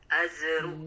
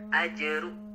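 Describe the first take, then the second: First: The middle consonant is hissed like a z. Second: The middle consonant is held and bounced. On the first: The speaker calls it wrong. "huruf jimnya masih berdesis" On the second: The speaker calls it right. "harusnya memantul ya karena huruf kokolah"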